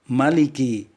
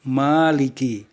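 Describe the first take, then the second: First: The first vowel is short. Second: The first vowel is long. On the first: God is the king. "Allah Maha merajai hari pembalasan" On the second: God is the owner. "Allah Maha memiliki"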